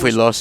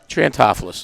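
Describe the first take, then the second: First: The name is said in a Greek-sounding way. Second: The name is said in a local Baltimore way. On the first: "if you want a little Greek flair to it" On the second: "it's the East Baltimore pronunciation"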